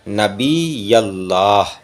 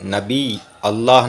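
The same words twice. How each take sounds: First: The two words run together through the l sound. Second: The two words are kept apart, not linked. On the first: The speaker calls it right. "इसी तरह से ... कहा करो" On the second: The speaker calls it wrong. "नहीं"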